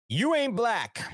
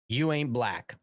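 First: Punchy higher delivery; punchline stress. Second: Said in the usual way. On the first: Real, not acted. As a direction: land the joke on "you".

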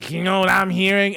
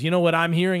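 First: A bit louder, with a knowing lean; dad's pointed question. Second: Said in the usual way. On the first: Retold or imitated. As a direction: imitate dad setting up a gotcha. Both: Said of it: "it was more like".

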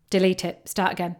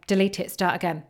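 Both takes have the same delivery.

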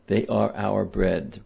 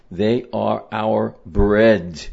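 First: Said in the usual way. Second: Slow, louder, weighing each word of They are our bread; a teacher driving the point home; slow emphatic. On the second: Shown as a demonstration. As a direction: lean on every word, slowly.

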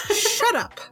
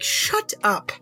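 First: High exasperated shout. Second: Said in the usual way. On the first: Retold or imitated. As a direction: shut up pitched way up. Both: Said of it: "I'm like".

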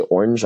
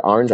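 First: "orange" said the American way; "orange" as an American says it; Americanized pronunciation. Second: "orange" said the Irish way; "orange" as an Irish speaker says it; Irish pronunciation. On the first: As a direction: say "orange" with a rounded OR, OR-anj. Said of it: "I would say orange". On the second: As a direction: say "orange" with the open Irish first vowel, AR-anj. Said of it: "I wouldn't say the word". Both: Shown as a demonstration.

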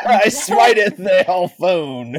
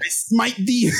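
First: Hammy wrathful deity; mock biblical prophet. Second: High, booming divine voice; mock biblical prophet. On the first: Echoing mock God voice. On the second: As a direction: play a wrathful god, hammed up. Mock God punishing phone.

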